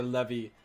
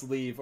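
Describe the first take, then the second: First: "levy", short e then a final ee; pronounced "levy". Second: "leave", long ee and no second syllable; pronounced "leave". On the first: Asking viewers how to pronounce it, "levy" in two syllables. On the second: Asking viewers how to pronounce it, "leave" with a long ee. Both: Shown as a demonstration. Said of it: "How the hell do you pronounce".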